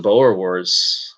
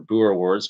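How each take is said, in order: First: "Boer Wars" with a long o in Boer; first pronunciation. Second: "Boer Wars" with an oo in Boer; alternative pronunciation. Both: Shown as a demonstration. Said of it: "whatever you wanna say".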